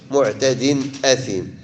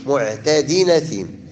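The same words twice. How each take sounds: First: معتد أثيم without carrying the tanween over; the way not to read it; wrong reading. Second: معتد أثيم read as /muʕtadin aθim/, tanween carried over to the hamza; reading with naql. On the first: Teacher shows students the wrong reading of معتد أثيم. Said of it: "ما كنقراوش معتد أثيم". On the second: Teacher shows students the correct naql in معتد أثيم. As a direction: link the nun into أثيم. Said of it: "كنقراوها بالنقل". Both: Shown as a demonstration.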